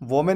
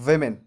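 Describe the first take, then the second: First: The first syllable sounds like 'voh'. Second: The first syllable sounds like 'vih'. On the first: The speaker calls it wrong. "वोमेन उच्चारण करना बिल्कुल गलत है" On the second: The speaker calls it right. "इसका सही उच्चारण होता है वेमेन"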